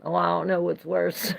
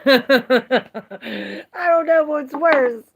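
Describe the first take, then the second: First: Said in the usual way. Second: Slow, loud, high, laughing through "I don't know what's worse". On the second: Real, not acted. Repeating her joke to chat, slow and laughing.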